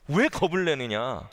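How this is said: It is said in an angry, scolding tone. The listeners are being rebuked. "이렇게 막 화를 내시면서 제자들에게 다그치셨을까?"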